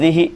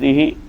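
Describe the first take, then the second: First: The final vowel is a short i. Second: The final vowel is lengthened. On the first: "bil kasr, dengan mengkasrah" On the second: "bil isba', maksudnya dengan memanjangkan zihi"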